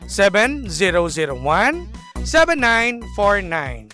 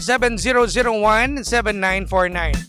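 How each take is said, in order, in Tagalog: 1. Mabagal basahin ang mga digit. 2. Mabilis basahin ang mga digit. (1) "bagalan natin" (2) "Mabilis? Ay, sorry"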